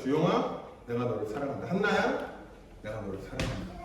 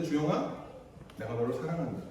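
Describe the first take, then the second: First: Soft, low and fading loving words; tender love. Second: Soft, low loving words; a hushed, tender declaration of love. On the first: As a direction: whisper the love down to almost nothing. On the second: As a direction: say it gently, like holding a child. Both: Retold or imitated. Loving parent speaking tenderly.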